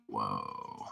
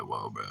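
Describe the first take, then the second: First: Awed whoa. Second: Whispered whoa. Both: Retold or imitated. Stunned at the concert, still tripping.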